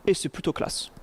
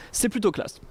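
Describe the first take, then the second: First: Breathy half-voice under his breath; whispered aside. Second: Said in the usual way. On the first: Real, not acted. Lecturer admiring a style-transfer slide, whispered aside. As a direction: murmur it to yourself, admiring.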